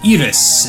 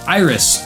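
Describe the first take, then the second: First: The name is said with Japanese pronunciation. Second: The name is said with English pronunciation.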